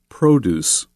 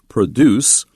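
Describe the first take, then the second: First: The stress is on the first syllable. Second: The stress is on the second syllable. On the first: It is the noun meaning fresh food. "change the pronunciation and use it as a noun" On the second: It is the verb meaning to make something. "used as a verb"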